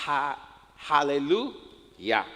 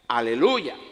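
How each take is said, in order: First: It begins with an audible h sound. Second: It begins directly with a vowel. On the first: This is how Hebrew speakers say it. "ellos dirían ha, aleluya, así lo pronuncian ellos" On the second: This is how Spanish speakers say it. "nosotros lo, lo pronunciamos como es aleluya"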